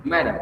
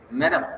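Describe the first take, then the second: First: Said in the usual way. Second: "madam" leaps much higher and rises at the end; pompous high call. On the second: Acted. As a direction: swoop "madam" up high, like a grand appeal. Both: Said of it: "speaking impressively".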